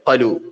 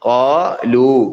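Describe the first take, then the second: First: The first vowel is short, not lengthened. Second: The first vowel is slightly lengthened. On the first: There is no long vowel letter after the first consonant. The speaker calls it wrong. "അവിടെ കാഫിന് ശേഷം അലിഫ് ഇല്ല" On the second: There is a long vowel letter after the first consonant. The speaker calls it right. "അലിഫ് ഉണ്ട് എന്ന് അറിയിക്കാൻ വേണ്ടി ഒരു അല്പം നീട്ടേണ്ടി വരും"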